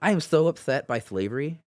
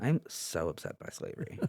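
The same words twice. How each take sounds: First: Effete northern liberal voice. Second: Whispered effete liberal lament; breathy whisper of a prissy liberal; effete northern liberal voice. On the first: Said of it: "that was my, um, effete, uh, northern liberal, uh, voice". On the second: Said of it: "effete, uh, northern liberal, uh, voice". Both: Pretend.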